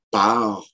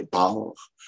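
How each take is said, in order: First: Said in the usual way. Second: "port" is part with a dark back a; grave back A. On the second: Shown as a demonstration. Lecturer showing old usage, part said like "port". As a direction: round the a of part toward "port". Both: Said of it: "un A qui est prononcé un peu grave".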